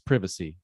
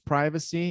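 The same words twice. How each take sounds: First: It is said with a British pronunciation. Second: It is said with an American pronunciation. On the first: "In British English, it's privacy" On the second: "in American English, it's privacy"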